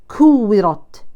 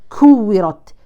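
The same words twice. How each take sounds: No difference in how they are said.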